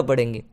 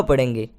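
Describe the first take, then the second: No difference in how they are said.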